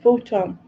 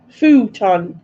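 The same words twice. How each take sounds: First: Said in the usual way. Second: Louder, drawn-out "Futon"; emphatic repetition. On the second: Shown as a demonstration. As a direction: say "Futon" louder and longer, for clarity. Repeating the misheard word clearly.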